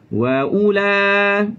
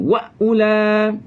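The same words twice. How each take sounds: First: The w is soft and glides gently into the vowel. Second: The w is forceful and crashes into the glottal stop. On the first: The speaker calls it right. "Lembutkan bunyi waw" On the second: The speaker calls it wrong.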